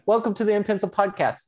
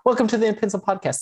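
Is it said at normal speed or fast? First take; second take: normal; fast. First: It is said at normal speed. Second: It is said very fast.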